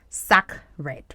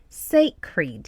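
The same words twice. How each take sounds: First: It sounds like the words sack and red. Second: It begins with 'say', not like sack and red. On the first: The speaker calls it wrong. "It is not sacred. Mm-mm. We're not combining sack and red together" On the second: The speaker calls it right. "So we have sacred"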